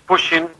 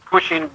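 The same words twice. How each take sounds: The two takes are said the same way.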